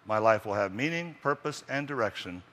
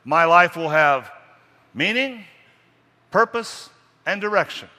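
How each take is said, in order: First: Said in the usual way. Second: Slow, high and loud proclamation; booming creed, word by word; loud emphatic recital. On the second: Shown as a demonstration. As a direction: declare each word like a vow.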